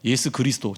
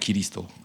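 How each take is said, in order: First: The word is said as geuriseudo. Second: The word is said as giriseudo. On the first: The speaker calls it right. "지금 정확히 하죠" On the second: The speaker calls it wrong. "옛날에 발음 틀렸던 게 뭐냐면"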